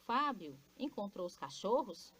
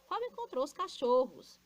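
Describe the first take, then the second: First: "cachorros" turned into a question; questioning intonation. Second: "Fábio encontrou" pitched high and loud; exclamatory intonation. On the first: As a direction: ask it, lifting the tune on "cachorros". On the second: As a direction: exclaim it, falling on "cachorros". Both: Shown as a demonstration. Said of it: "dando a entonação adequada".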